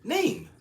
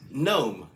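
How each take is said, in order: First: "Name" pitched very high, with a long A; corrected pronunciation. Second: "Gnome" with an O vowel, rhyming with home; odd pronunciation. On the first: Baffled customer checks the agent's word, high "Name" with an AY sound. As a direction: say "Name" with an AY vowel, high and falling. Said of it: "Are you saying name?". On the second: Agent tells the customer her word, "Gnome" with an O sound. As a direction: say "Gnome" as the agent's version of name. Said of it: "She says". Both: Retold or imitated.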